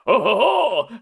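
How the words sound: It is said in a very low, gruff voice.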